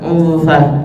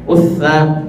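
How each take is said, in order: First: A nasal n sound remains before the consonant. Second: The n merges completely into the following consonant. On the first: The speaker calls it right. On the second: The speaker calls it wrong.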